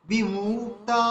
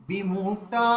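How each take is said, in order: Both takes have the same delivery.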